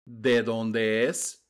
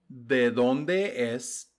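Both takes have the same delivery.

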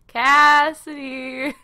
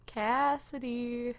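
First: Drawn-out, loud, higher sing-out of the name; taunting call. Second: Drawn-out, softer call of the name; slow, quieter teasing call to someone hiding; taunting call. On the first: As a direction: call out slowly to someone hiding. Killer calling out to hiding player. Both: Pretend.

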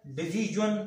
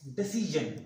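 First: डिसीजन said with a j sound, dee-jee-jun, as a wrong example; डिसीजन mispronounced dee-jee-jun; wrong pronunciation. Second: डिसीजन said di-see-zhun, the right way; careful correct डिसीजन; correct pronunciation. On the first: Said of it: "ये pronunciation तलफ़ुज़ गलत है". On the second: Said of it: "pronunciation तलफ़ुज़ गलत है". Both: Shown as a demonstration.

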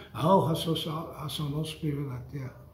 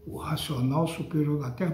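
First: Dismissive mock quote. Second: Said in the usual way. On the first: Preacher imitating followers who repeat the title, dismissive mumble. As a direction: toss it off like a rote phrase. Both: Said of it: "Vocês falam".

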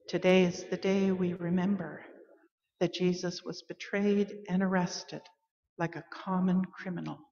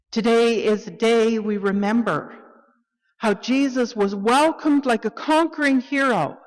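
First: Soft, subdued, grave reading; hushed, solemn telling of a betrayal; somber remembrance. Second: Higher, louder, celebratory reading; ringing joy for the congregation; triumphant proclamation. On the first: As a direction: drop into quiet sorrow and let it fade. Call to worship, sorrowful remembrance. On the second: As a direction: lift it like a welcome for a hero. Call to worship, joyful remembrance. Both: Acted.

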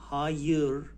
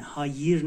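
First: "هایر" without an ee sound; correct undotted ı. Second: "هایر" with front i in the last syllable; mispronounced dotted i. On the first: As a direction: say "هایر" as ha-yır with a back unrounded vowel. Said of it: "ببین نقطه رو نمیذاری". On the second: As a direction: say "هایر" as ha-yir with a clear ee. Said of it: "نه، نه، هایر نه". («هایر» با «ای»ی فارسی) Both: Shown as a demonstration.

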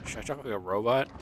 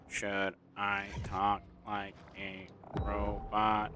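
First: Said in the usual way. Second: Slow, mechanical robot impression. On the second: Shown as a demonstration. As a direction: say it like a machine, word by word.

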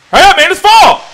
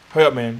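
First: Much higher and louder, pleading with the tree; impatient yell. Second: Said in the usual way. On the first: Real, not acted. Urging the tree to fall.

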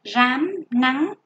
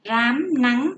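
First: "Rám" with a clear R and the rhyme an, "nắng" with N and ăn; slow teacher model; careful pronunciation. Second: "rám nắng" called out a little louder; name "rám nắng" for the pupils to underline; first listing; word listed for pupils. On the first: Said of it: "âm R, vần an, âm N, vần ăn". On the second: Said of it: "Các em chú ý cho cô từ". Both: Shown as a demonstration.

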